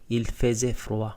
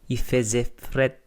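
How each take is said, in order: First: The last word is pronounced like 'frwa'. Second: The last word is pronounced like 'fret'. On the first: "Sa standard French" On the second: "yung froid dito ay fret sa Quebec"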